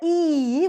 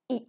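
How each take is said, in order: First: The vowel is full and long. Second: The vowel is short and reduced. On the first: "which is a stronger one" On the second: "reduced to its weak form e"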